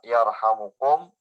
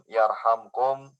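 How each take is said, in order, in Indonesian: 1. Kata itu memiliki vokal u sebelum kum. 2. Kata itu tidak memiliki vokal sebelum kum. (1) "dibaca dengan rofa" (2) "dibaca dengan jazm"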